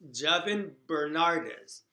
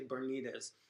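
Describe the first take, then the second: First: The middle syllable sounds like 'nar'. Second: The middle syllable sounds like 'nee'. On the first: The speaker calls it right. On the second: The speaker calls it wrong.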